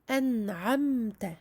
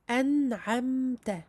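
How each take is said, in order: No difference in how they are said.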